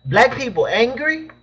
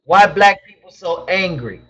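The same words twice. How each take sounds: First: Slow, higher, questioning rise on "angry"; incredulous echo. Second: Said in the usual way. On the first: Real, not acted.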